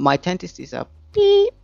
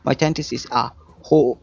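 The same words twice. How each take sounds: First: Replace the swear with a sung-out beep; mock censor bleep. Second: Said in the usual way. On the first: Shown as a demonstration. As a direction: beep voiced as a bleep sound. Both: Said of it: "I missed the dirty words".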